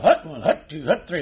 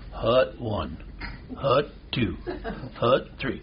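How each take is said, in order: First: It is said fast. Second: It is said slowly.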